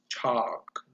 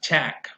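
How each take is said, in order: First: The vowel is the open back 'ah' sound. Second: The vowel is the front 'a' of cat. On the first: The speaker calls it right. "it's chalk" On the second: The speaker calls it wrong. "it's not chack, right? It's it's not an ash"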